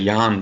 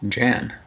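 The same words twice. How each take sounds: First: The name begins with a silent J. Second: The name begins with a sounded J. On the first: The speaker calls it wrong. "I'm used to Jan because of Westergaard" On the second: The speaker calls it right. "the J isn't silent, huh?"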